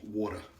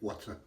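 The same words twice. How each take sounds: First: It is said in a New York accent. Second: It is said in a general American accent.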